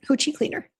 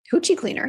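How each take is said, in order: First: Said in the usual way. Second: Hoochie pitched up high and teasing; high cheeky Hoochie cleaner; cheeky nickname. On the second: Real, not acted. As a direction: toss out Hoochie cleaner with a playful lilt. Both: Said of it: "that's what I call it".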